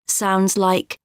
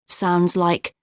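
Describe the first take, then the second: The two takes are said the same way.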